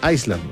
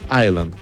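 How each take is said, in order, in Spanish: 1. La S se pronuncia en la palabra. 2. La S es muda en la palabra. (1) "Hay gente que dice Iceland, no" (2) "es Island, ... se pronuncia Island sin la S"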